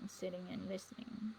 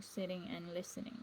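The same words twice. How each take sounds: First: Breathy echo of the line, no voice; soft whispered aside. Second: Said in the usual way. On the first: Shown as a demonstration. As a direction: whisper the repeat of sitting and listening. Repeats phrase, second whispered.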